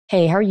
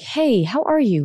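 First: It sounds anxious and controlling. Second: It sounds warm and relaxed.

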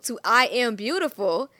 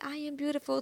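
First: It is said loudly and confidently. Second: It is said in a small, quiet voice.

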